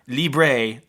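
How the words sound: The word is said with a Spanish pronunciation. The speaker calls it wrong. "it's not libre like Spanish"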